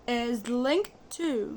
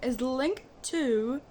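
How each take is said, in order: The two takes are said the same way.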